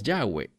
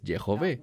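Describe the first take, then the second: First: The name ends with a 'way' sound. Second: The name ends with a 'vay' sound. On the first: The speaker calls it wrong. "erradamente la gente que no habla hebreo pronuncia Yahweh" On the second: The speaker calls it right. "apropiadamente se pronunciaría como Yehové"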